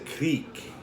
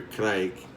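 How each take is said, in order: First: The vowel sounds like 'ee'. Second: The vowel sounds like 'eye'. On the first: "I think it's a creek is how it's pronounced" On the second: "or crike"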